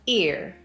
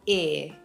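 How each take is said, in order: First: The vowel ends with an audible r sound. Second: The vowel glides to a schwa without an r. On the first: "American English speakers simply say ear" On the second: "It starts as I and it moves to a schwa"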